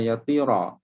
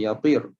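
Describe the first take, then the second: First: The word ends with a final a vowel. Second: The word ends without any final vowel. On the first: "Kita tak baca dengan yatira" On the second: "kita tak baca dengan baris mati"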